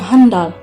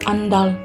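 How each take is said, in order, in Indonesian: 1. Kata itu diawali dengan bunyi h. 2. Kata itu langsung diawali dengan vokal. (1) "dan kata tidak bakunya handal" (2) "Kata baku yang kesepuluh"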